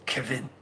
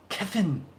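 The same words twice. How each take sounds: First: Said in the usual way. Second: Kevin as Kefin, higher, a mock German accent; mock German Kefin, pitched up; German accent attempt. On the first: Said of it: "I can't say Kevin with a German accent". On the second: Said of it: "With a German accent".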